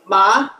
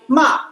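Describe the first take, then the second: First: The pitch rises high across the syllable. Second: The pitch falls across the syllable. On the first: "this one is higher rising" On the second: "This is a falling tone"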